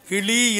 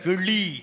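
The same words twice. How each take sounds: First: The middle consonant is a plain l sound. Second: The middle consonant is made with the tongue curled. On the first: The speaker calls it wrong. "கிளி இல்லை" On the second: The speaker calls it right. "இந்த நாக்கு மடங்கணும்"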